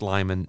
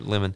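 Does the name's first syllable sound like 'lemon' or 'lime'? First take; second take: lime; lemon. First: The first vowel sounds like the word 'lie'. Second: The first vowel sounds like the word 'let'. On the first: The speaker calls it wrong. "I thought it was Lyman" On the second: The speaker calls it right. "pronounced like Lemon"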